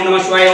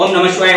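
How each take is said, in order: Both takes have the same delivery.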